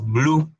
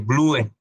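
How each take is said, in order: First: The final e is silent. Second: The final e is pronounced aloud. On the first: The speaker calls it right. "la E al final de una palabra es muda" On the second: The speaker calls it wrong. "en vez de"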